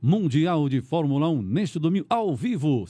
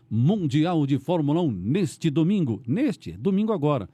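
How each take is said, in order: First: Slowed, emphatic broadcast call; announcer promo. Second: Slow, drawn-out announcer promo; radio promo read. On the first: Host repeating the race promo on air, broadcast style. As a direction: announce the live race to pull listeners in. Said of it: "Então tá passando lá os carros". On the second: Radio host demonstrating a race promo, announcer voice. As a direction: sell Sunday's race like a broadcast teaser. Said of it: "é aquele negócio do, da Fórmula um". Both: Shown as a demonstration.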